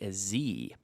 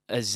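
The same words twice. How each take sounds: First: The letter is said the American way. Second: The letter is said the non-American way. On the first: "as the Americans would say" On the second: "as I say"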